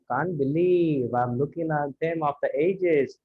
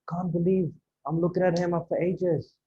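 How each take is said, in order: First: Slow, drawn-out delivery without surprise; wrong, unsurprised tone. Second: Hushed amazement, spoken aside to a partner; surprised disbelief. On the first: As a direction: drag the line out, missing the amazement. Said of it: "rather than". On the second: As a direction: marvel to your lunch partner that it's really him. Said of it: "That kind of tone". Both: Shown as a demonstration.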